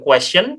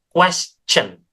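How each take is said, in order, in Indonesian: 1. Konsonan tengahnya adalah bunyi sh yang lembut. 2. Konsonan tengahnya adalah bunyi ch. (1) "bukan question" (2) "melainkan question ya, pakai C aja"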